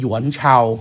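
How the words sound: The name is said in a Mandarin Chinese pronunciation. "ถ้าเกิดว่าเป็นสำเนียงจีนเนี่ยจะเรียกว่าหยวนเฉา"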